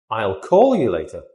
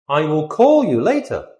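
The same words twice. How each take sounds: First: I'll as one quick syllable; contracted. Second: Said in the usual way. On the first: Shown as a demonstration. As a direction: slide I'll straight into call.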